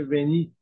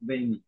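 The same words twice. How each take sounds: First: ونیت with barely any Y glide, close to "venit"; lighter Y sound. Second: وینیت with a little Y, like "veynit"; slight Y glide. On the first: Lecturer showing an accepted French-derived term, reduced Y. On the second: Lecturer showing the alternative term, audible Y glide. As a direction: let a small Y sound into وینیت. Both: Shown as a demonstration.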